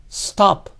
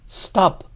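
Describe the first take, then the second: No difference in how they are said.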